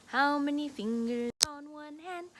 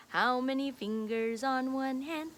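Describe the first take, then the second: No difference in how they are said.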